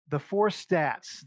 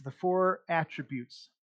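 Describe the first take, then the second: First: Four stretched slow and louder; stress on four. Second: Four drawn out slowly; stress on four. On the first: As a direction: lean on the word four slowly. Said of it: "slowed emphasis on four". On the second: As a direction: hit four, slow and deliberate. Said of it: "repeated with emphasis". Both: Shown as a demonstration.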